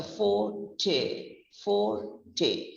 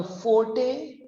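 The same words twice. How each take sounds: First: Forte slowly split as fo, then tay falling; low-emphasis pronunciation. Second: Forte as one run-together word, for-tay, rising; rejected pronunciation. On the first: Teacher showing the correct word, low emphasis on tay. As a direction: say forte in two parts, tay falling away. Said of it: "it's a low emphasis on the word". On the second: Teacher showing what it is not, rejected pronunciation. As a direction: say forte joined up, ending upward. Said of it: "last word is not a". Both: Shown as a demonstration.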